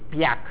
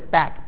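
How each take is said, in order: First: A y glide follows the p. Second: The p goes straight into the vowel.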